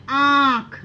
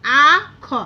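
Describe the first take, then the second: First: आँख with a long vowel through the nose; nasal pronunciation. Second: आ ख loud, open oral "aa" then "kha"; without nasalisation. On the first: Teacher showing what we actually say, आँख long and nasal. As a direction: draw out आँख nasally before the "kh". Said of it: "थोड़े से हमारे नाक से आवाज़". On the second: Teacher reading without chandrabindu, आ ख loud and non-nasal. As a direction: sound out आ ख firmly, nothing through the nose. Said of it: "अगर चंद्र बिंदु हटाकर देखिए". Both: Shown as a demonstration.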